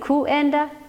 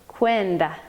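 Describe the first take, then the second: First: The u is a separate vowel, ku-en-da. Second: The u glides into a w, kwen-da. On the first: The speaker calls it wrong. "instead of being kuenda" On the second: The speaker calls it right. "the u becomes a w"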